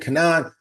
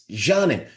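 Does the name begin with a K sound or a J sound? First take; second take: K sound; J sound. First: The name begins with a hard K sound. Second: The name begins with a soft J sound. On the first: The speaker calls it wrong. "We butchered her name" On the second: The speaker calls it right. "No, it's Janin"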